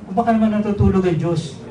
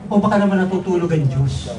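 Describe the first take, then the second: No difference in how they are said.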